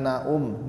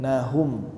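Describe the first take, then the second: First: The h sound between the vowels is dropped. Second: A clear h sound joins the two vowels. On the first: The speaker calls it wrong. "jangan naum" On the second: The speaker calls it right. "Nahum ya Pak ya"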